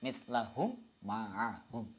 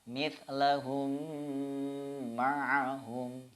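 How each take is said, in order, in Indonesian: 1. Dua bunyi m itu dibaca terpisah. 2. Dua bunyi m itu menyatu menjadi satu m yang ditahan. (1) "Tidak bisa dibaca" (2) "Cara membacanya"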